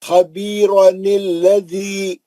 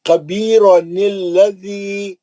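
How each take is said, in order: Both takes have the same delivery.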